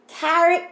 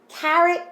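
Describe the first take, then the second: Both takes have the same delivery.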